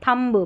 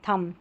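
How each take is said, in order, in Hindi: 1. इस शब्द का अंत सुनाई देने वाली b ध्वनि से होता है। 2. यह शब्द m पर खत्म होता है, b पर नहीं। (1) "अगर बी तक बोलेंगे थम्ब ब, ब गलत हो जाएगा उच्चारण" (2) "थम म पे ही रुक रहा है बी साइलेंट है"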